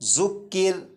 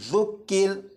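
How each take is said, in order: First: The consonant has a sharp buzzing hiss. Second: The consonant is soft, without any hissing. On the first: The speaker calls it wrong. "इसे इस तरह नहीं पढ़ेंगे" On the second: The speaker calls it right. "सीटी की आवाज़ ख़त्म हो जाएगी"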